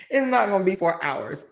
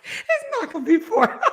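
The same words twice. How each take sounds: First: Said in the usual way. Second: High, squeaky words broken by laughter; "hours" lost in a high wheezing laugh. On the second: Real, not acted. Host reassuring viewers on length, too tickled to finish. First try collapses into laughter.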